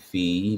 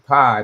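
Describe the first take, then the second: First: The vowel sounds like the one in fee. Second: The vowel sounds like the one in pie. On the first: This follows the written pronunciation guide. "pronounced F E E" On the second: This is the speaker's habitual pronunciation. "I would always say pi"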